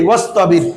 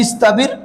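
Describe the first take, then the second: First: ওয়াস্তাবির with the ওয়া joined on, so the ই drops; joined with waw. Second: ইস্তাবির said with the ই, no ওয়াও before it; hamza wasl reading. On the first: Teacher shows ওয়াস্তাবির read with the waw joined on. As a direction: run ওয়া straight into স্তাবির. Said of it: "ওয়াও সহ পড়লে হবে কি". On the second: Teacher shows ইস্তাবির read on its own, starting with ই. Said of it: "এমনে পড়লে হবে". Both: Shown as a demonstration.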